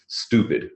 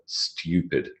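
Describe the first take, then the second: First: It has no y sound after the t. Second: It has a y sound after the t. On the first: "for an American" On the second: "rather than"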